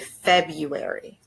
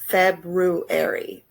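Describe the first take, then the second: First: It is pronounced in a common casual form. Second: It is pronounced following the spelling. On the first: "many Americans say" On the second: "spelt like this"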